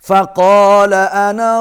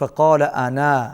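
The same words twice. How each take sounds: First: It joins 'ana' onward with a short final vowel. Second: It stops after 'ana' with a long final vowel. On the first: "ملا کے پڑھ رہے ہیں تو پھر الف نہیں پڑھا جائے گا" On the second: "یہاں پر وقف کرنا پڑ جائے تو پھر یہ الف پڑھا جائے گا"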